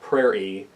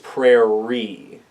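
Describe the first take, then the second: First: The middle R sound is said only once. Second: The middle R sound is said twice. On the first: The speaker calls it wrong. "It's not prairie" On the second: The speaker calls it right. "You need to have that reiteration of an R in there"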